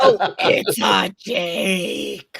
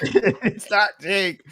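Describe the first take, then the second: First: Slow mock. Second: Slow laughing repeat. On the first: Slow joking correction. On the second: Acted.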